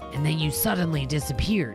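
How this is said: It is read in one character voice. The line is voiced as the wrong character. The speaker calls it wrong.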